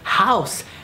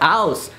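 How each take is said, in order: First: The word starts with an audible h sound. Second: The word starts without any h sound. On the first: The speaker calls it right. "It's house" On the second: The speaker calls it wrong. "not house"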